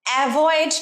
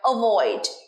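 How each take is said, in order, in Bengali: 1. প্রথম স্বরধ্বনিটি 'cat' শব্দের 'a' এর মতো শোনায়। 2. প্রথম স্বরধ্বনিটি ছোট 'o' এর মতো শোনায়। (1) "অ্যাভয়েড নয়, অ্যাভয়েডের যে এটা আছে তার উচ্চারণ অ্যা হয় না" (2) "অ হয়"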